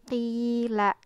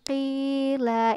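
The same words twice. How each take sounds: First: The long vowel is held for about two beats. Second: The long vowel is stretched out far too long. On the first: The speaker calls it right. "dikira-kirakan dua harokat" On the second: The speaker calls it wrong. "jangan qila, itu terlalu panjang"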